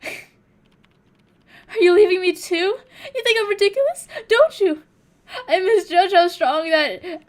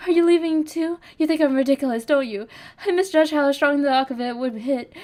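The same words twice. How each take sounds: First: High, loud, slow wailing sob; overdone fake crying. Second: A touch of tears, pitched a little up; tearful pleading. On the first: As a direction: ham up the crying, begging not to be left. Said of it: "I'm not good at, like, fake crying". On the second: Acted. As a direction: plead through held-back tears, hurt and drunk. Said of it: "You're crying?".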